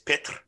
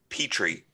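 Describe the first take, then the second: First: The name is said with a rolled R. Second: The name is said with a plain English R. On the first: This is the original, correct form of the name. "The actual pronunciation is Pitre. Very few people can pronounce that rolling R" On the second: This is the familiar version used growing up. "I grew up with uh"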